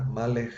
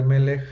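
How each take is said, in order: First: Malech with an open a in the first syllable; old pronunciation. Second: Melech with e in both syllables; modern pronunciation. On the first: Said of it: "en la posible vocalización antigua". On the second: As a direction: say Melech with two short e sounds, stress on the first. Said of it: "En lugar de Melech". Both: Shown as a demonstration.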